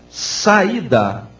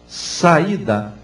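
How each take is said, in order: Both takes have the same delivery.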